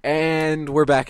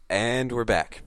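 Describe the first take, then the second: First: Drawn-out, loud host voice; showman announcement. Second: Said in the usual way. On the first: Acted. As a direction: welcome the audience back with flair. Host re-opens the show.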